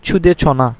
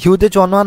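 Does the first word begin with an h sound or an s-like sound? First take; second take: s-like sound; h sound. First: The first word begins with an s-like sound. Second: The first word begins with an h sound. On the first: The speaker calls it right. "বলবো ছুদে ছনা" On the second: The speaker calls it wrong. "হিউদে চনা না বলে"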